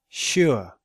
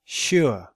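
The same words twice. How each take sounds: First: The vowel is a two-part 'oo-uh' glide. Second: The vowel is a two-part 'oo-uh' glide.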